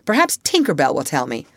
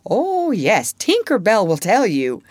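First: Quick, mildly piqued retort; a little nettled. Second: Higher, louder mocking retort; scornful. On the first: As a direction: toss it out quickly, slightly irked. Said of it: "a little nettled". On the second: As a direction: throw it back with exaggerated scorn. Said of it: "Wendy retorted scornfully". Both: A narrator's reading.

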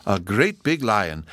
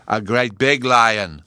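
First: Said in the usual way. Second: Loud, slow, emphatic correction; insistent little boy putting someone right; correcting child Bruno. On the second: A narrator's reading. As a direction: butt in loudly and stretch each word. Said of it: "Bruno corrected her".

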